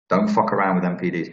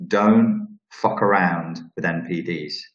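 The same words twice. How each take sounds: First: Said in the usual way. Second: Slow, spaced-out words, weight on Don't; slow emphatic warning. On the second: Real, not acted. Emphatic warning, then repeated quicker.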